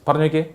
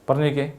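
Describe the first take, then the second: Both takes have the same delivery.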